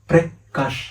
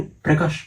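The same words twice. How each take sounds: First: Prakash split into two beats, pause after the first syllable; name broken in two. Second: Said in the usual way. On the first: Acted. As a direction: say Prakash syllable by syllable, briefly pausing inside. Repeats own name in parts.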